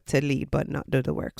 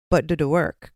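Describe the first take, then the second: First: "do" held and stressed in "not do the work". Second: "but" lifted and leaned on, the rest dropping; stress on BUT. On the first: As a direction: land hard on "do". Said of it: "some people just want to". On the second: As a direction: push the word "but" before "do the work". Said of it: "pay attention to who likes to take charge". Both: Shown as a demonstration.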